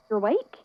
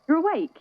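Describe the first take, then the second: First: Rising, unsure "You're awake?", awake lifted; disbelieving question. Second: Much higher and louder, "You're" hit hard, falling on "awake"; overjoyed exclamation. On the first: Friend waking in hospital bed, startled questioning. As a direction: ask it as if you can't believe it. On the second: Relieved friend greeting Pearl as she wakes, overjoyed. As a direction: burst out in delighted relief. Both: Acted.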